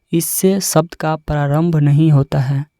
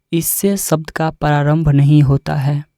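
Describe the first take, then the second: Both takes have the same delivery.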